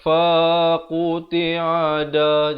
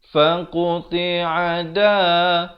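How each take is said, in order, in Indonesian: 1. Suku kata fa dipanjangkan. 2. Semua suku kata dibaca dengan panjang yang sama dan singkat. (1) "Jangan baca faqti'a da, jadi fa jadi panjang" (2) "Ini semua empat huruf yang pertama adalah satu harakat"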